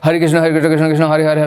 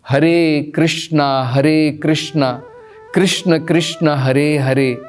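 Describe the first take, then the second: First: The words are rushed and slurred together. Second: Every word is pronounced clearly and distinctly. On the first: The speaker calls it wrong. "कई बार लोग जो है स्पष्ट तरीके से नहीं बोलते हैं।" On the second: The speaker calls it right. "हर एक शब्द स्पष्ट होना चाहिए, क्लियर होना चाहिए।"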